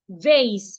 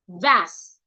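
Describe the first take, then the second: First: It is said with an American accent. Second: It is said with a British accent.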